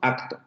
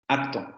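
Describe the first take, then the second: First: The k sound is a full, clear stop. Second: The k sound is relaxed and weakened. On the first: "Velar oclusivo eh, sordo, acto. Porque teóricamente así lo debemos de pronunciar" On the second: "Si ustedes lo pronuncian rápidamente, se van a dar cuenta que en esa consonante hay una relajación"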